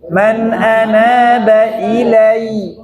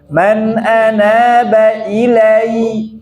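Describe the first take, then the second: No difference in how they are said.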